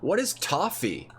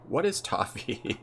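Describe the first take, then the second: First: The question is yelled loudly. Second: The question is said at normal volume. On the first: The speaker calls it wrong. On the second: The speaker calls it right.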